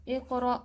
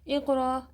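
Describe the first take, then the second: No difference in how they are said.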